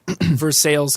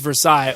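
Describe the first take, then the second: First: It is pronounced the local Kentucky way. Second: It is pronounced the French way. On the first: This is how people in the town say it. "people give you shit about Versailles, Kentucky" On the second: This is how outsiders insist it should be said. "they'll be like, well, technically it's Versailles"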